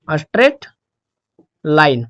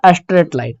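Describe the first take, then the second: First: "straight", long pause, then "line" lower; word by word. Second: Said in the usual way. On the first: Shown as a demonstration. Teacher giving students the graph's nature, word by word. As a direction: dictate "straight" and "line" as separate words. Repeats term slowly while writing.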